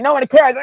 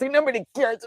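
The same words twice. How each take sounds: First: Much higher and louder, flat dismissal; blunt shout. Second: Mock sulky whine. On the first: Retold or imitated. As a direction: bark it out like a tough eight. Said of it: "and they're like". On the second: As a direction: whine "Nobody cares." like a hurt kid. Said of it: "Versus I'd be more like".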